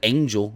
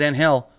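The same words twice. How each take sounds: First: It is said with an English pronunciation. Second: It is said with a Spanish pronunciation.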